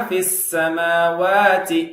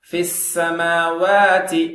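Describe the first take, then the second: The two takes are said the same way.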